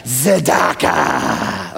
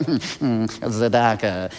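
First: Tzedakah drawn out slowly from the throat; right tzedakah. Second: Tzedakah said soft and limp; a lazy, quiet tzedakah; wrong tzedakah. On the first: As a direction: stretch tzedakah, rasp from the throat. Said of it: "You have to say". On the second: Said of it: "You can't say it like". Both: Shown as a demonstration.

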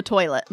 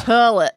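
First: Said in the usual way. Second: TOILET said as "TER-lit"; "toilet" with an er vowel, terlet; regional "terlet". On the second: Retold or imitated. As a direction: turn the oy in "toilet" into an er sound. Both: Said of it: "for toilet".

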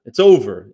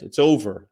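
First: Emphatic louder repeat. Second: Said in the usual way. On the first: Real, not acted. Telling Bernie fans to give up, said louder. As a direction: punch it out louder the second time.

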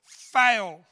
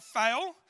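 First: Shouted at the top of his lungs, much louder; loud yell. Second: A shorter, lighter call-out, only a bit louder; mock yell. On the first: Retold or imitated. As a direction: bellow it across the rows to mock a mate. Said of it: "yells out at the top of his voice". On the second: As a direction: toss it out again as a teasing jab. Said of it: "So he yells out".

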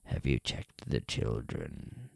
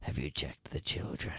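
First: Much lower, very slow, drawn-out creepy voice; creepy caller. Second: Low, slow, hushed creepy phone voice; chilling caller. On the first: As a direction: drag each word out low like a stalker savouring it. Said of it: "says the creepy voice". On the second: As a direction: lean in low and menacing, like a stalker on the line. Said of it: "says in a chilling voice". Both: Acted.

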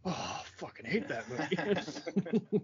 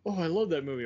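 First: Slow, higher-pitched mock loathing; mock disgust. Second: Higher, louder mock gushing; gushing fan. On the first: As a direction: drag it out like a hater, half laughing. Acting out a hater's reaction. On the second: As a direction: act out an enthusiastic fan. Acting out a fan's reaction.

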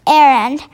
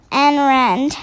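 First: Said in the usual way. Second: "errand" misread with an extra n, like "en-rand". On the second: Real, not acted. Misread word, then corrected.

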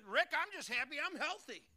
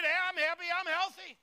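First: A hint of a chirpy churchgoer, higher; I'm happy I'm healthy lightly voiced; mock congregant. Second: High, loud happy declaration; I'm happy I'm healthy shouted high and loud; joyful shout. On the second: Shown as a demonstration. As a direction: belt it out for the congregation. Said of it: "Raise your hand. Just get".

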